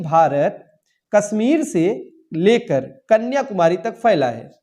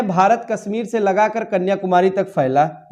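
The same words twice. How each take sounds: First: Careful teacher's model reading, slowed down; slow corrected sentence. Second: Said in the usual way. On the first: Shown as a demonstration. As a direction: slowly read out the corrected sentence. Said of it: "यहाँ पे होना चाहिए". (धीमे, साफ़ सही वाक्य) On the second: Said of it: "ये गलत है".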